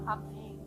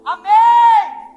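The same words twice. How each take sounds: First: The word is spoken at normal volume. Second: The word is shouted loudly.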